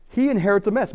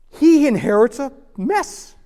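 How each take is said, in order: First: "He inherits a mess" high, in one unbroken run; emphatic restatement. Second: "He inherits a mess" very high, loud and slow; dramatic emphasis. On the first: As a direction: restate "He inherits a mess" compactly at moderate volume. Repeat of the dramatic line. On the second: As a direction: stretch out "He inherits", then land separately on "mess". Dramatic first take, then repeated. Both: Real, not acted.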